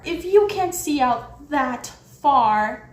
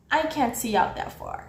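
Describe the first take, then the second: First: Slow, emphatic, heated echo; incredulous retort. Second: Said in the usual way. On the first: Retold or imitated. Mocking the guard's excuse back at him, incredulous. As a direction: throw the excuse back, drawn out.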